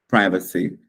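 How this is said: It is said with an American pronunciation. "lá em Nova York dando a sua palestra, você vai falar privacy"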